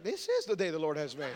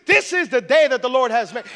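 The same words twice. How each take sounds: First: Low, soft, laughing delivery; subdued echo. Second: Loud, upbeat proclamation; grateful enthusiasm. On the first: Listener echoing a grateful person, low and subdued. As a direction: say it quietly, dropped right down. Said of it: "and you're like". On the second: Grateful person greeting a rainy day, loud enthusiasm. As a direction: declare it with big joyful energy. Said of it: "somebody that has a grateful heart". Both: Acted.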